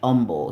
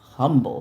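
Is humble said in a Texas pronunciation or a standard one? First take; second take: Texas; standard. First: It is said with a local Texas pronunciation. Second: It is said with a standard, non-local pronunciation. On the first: The speaker calls it wrong. "They say humble here in, in Texas" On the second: The speaker calls it right. "But it's humble"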